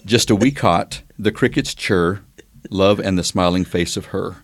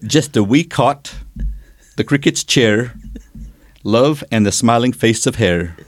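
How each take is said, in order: First: It is said in an American accent. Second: It is said in a Scots-Irish-style accent.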